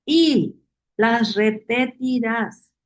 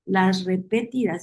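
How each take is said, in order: First: "Y las repetirás" slowed right down and pressed; slow insistence. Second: Said in the usual way. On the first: Shown as a demonstration. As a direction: drag out "Y las repetirás" like a command to remember. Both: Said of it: "Mucha insistencia".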